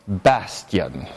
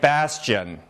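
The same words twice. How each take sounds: First: The consonant after the s is a plain t. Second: The consonant after the s is a ch sound. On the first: "I don't say bastion" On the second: "Instead of ta, I say cha"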